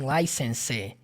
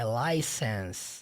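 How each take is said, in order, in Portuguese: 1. A palavra termina com um som de vogal acrescentado. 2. A palavra termina limpa, no som de S. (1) "Não tem license" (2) "Terminando o som do S"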